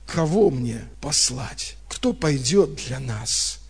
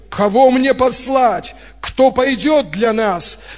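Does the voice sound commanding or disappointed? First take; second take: disappointed; commanding. First: It is said in a disappointed, reproachful tone. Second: It is said in a commanding, summoning tone. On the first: The asker is let down that no one responds. "Вот я услышал это именно с такой интонацией" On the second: The asker is issuing an order or a call. "Раньше я как будто бы представлял по-другому"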